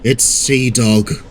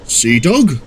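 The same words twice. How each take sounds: First: Slow, grumbled announcement of Sea Dog; grumbling. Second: "Sea Dog" as a higher-pitched question; asking. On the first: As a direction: drag it out as a grumble. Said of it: "he grumbled". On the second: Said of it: "asked the captain". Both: A narrator's reading.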